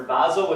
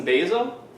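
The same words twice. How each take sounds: First: Basil said BAZ-il; basil with short A. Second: Basil said BAY-zil; basil with long A. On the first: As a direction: say basil with the first vowel as in "jazz". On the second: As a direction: say basil with the first vowel as in "day". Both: Shown as a demonstration. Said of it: "whichever way you wanna".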